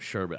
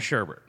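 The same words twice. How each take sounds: First: The second syllable has no R sound. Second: The second syllable has an added R sound. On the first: The speaker calls it right. "It's S-H-E-R-B-E-T. There's no second R" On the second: The speaker calls it wrong. "It's not sherbet"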